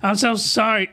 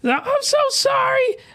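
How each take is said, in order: First: It is said without the female voice. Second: It is said in a put-on female voice.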